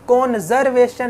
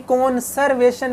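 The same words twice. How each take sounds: First: कॉन्जर्वेशन said "konzervation" with a buzzing z; with a z sound. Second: कॉन्जर्वेशन said "konservation" with a clear s; with an s sound. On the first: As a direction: voice the z in कॉन्जर्वेशन, the wrong way. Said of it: "जेड की आवाज़ नहीं आएगी". (कॉन्जर्वेशन में ज़ेड की गलत आवाज़) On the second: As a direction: hiss the s in कॉन्जर्वेशन. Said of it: "एस की आवाज़ आनी है". (कॉन्जर्वेशन में एस की आवाज़) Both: Shown as a demonstration.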